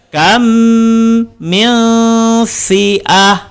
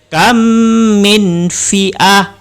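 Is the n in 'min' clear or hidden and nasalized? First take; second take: hidden; clear. First: The n is hidden and nasalized, tongue not touching. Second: The n is clear, with the tongue touching the palate. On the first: The speaker calls it right. "Cara membacanya ialah menyembunyikan serta dengung" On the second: The speaker calls it wrong.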